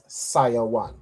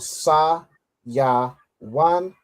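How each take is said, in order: First: The syllables are run together smoothly. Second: Each syllable is said apart with pauses. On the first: "you pronounce it as" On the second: "we split the parts"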